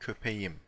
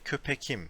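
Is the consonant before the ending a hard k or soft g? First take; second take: soft g; hard k. First: A soft g sound comes before the ending. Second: A hard k sound comes before the ending. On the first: The speaker calls it right. "we say köpeğim" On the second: The speaker calls it wrong. "We don't say köpekim"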